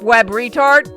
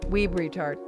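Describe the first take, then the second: First: The first word has a short vowel, like web. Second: The first word has a long vowel, like weeb.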